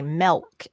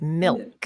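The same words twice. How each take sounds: First: The vowel sounds like a short e. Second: The vowel sounds like a short i.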